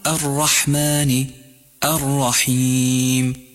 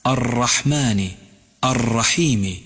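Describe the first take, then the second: First: الرحمن الرحيم slowly with one tap of ra; single-tap ra. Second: الرحمن الرحيم slowly with an over-trilled ra; rolled ra error. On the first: Teacher models the correct ra for the learner. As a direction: recite slowly, one clean ra only. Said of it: "قل". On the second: Teacher imitates how some people wrongly recite. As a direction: roll the ra too long in الرحمن to show the mistake. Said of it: "لاحظ كيف يقرأها بعض الناس". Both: Shown as a demonstration.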